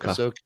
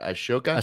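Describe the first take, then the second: First: The name starts with an 'ah' sound. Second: The name starts with an 'ash' sound. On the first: The speaker calls it right. "Oh, okay, Ahsoka" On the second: The speaker calls it wrong. "I was switching to S and the H"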